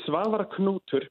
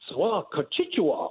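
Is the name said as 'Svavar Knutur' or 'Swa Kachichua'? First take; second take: Svavar Knutur; Swa Kachichua. First: The name sounds like Svavar Knutur. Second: The name sounds like Swa Kachichua. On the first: This is the owner's own pronunciation. The speaker calls it right. "It's Svavar Knutur" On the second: A foreign radio host mangled the name. The speaker calls it wrong. "the funniest way I've ever heard it pronounced"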